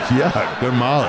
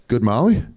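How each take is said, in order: First: "Yeah, good Molly" drawn out, falling at the end; emphatic confirmation. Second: "Good Molly?" higher, rising at the end; curious question. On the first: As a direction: confirm "good Molly" slowly and high, with relish. His confirming answer, retold. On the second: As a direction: ask "Good Molly?" with an interested upward lilt. Dental tech's question, retold. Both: Retold or imitated.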